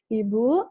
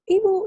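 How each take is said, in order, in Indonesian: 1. Kata itu diucapkan dengan pelan, lambat, dan jelas. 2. Kata itu diucapkan dengan keras, hampir berteriak. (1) "tone yang soft, yang jelas ... speed-nya pelan" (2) "nggak perlu, ... gitu enggak"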